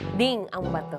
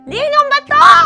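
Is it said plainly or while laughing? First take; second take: plainly; laughing. First: It is said in a plain voice. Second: It is said laughing as if being tickled.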